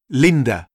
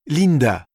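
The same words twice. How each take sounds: First: "Linda" as an English name, stressed on LIN; English pronunciation. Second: "Linda" as said in French, even syllables; French pronunciation. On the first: Teacher giving vocabulary, "Linda" in English pronunciation. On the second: Teacher translating the name, "Linda" in French pronunciation. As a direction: say "Linda" with a French I and full final A. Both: Shown as a demonstration. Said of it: "Quelques mots de vocabulaire".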